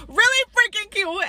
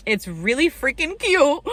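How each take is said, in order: First: Much higher, squeaky repeat of Really freaking cute; squealing gush. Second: Gushing. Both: Real, not acted.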